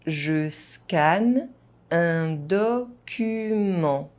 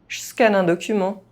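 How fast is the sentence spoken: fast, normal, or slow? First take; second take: normal; fast. First: It is spoken at an ordinary, moderate pace. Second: It is spoken fast, with some sounds dropped. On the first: "at a normal pace" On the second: "fast, as a native speaker would do"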